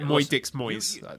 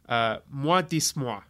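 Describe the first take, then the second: First: The name is said with an English pronunciation. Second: The name is said with a French pronunciation. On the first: "That's more fun" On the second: "I'm going to go with an elegant French pronunciation"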